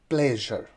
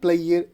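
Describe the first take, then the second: First: The middle consonant is a voiced zh sound. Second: The middle consonant is not a zh sound. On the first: The speaker calls it right. "it is pleasure" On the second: The speaker calls it wrong. "People pronounce it player. It is not player"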